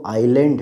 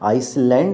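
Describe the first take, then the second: First: The s sound is left out of the word. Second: The s sound is pronounced in the word. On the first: The speaker calls it right. "बल्कि वो आइलैंड है" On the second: The speaker calls it wrong. "आइसलैंड नहीं है"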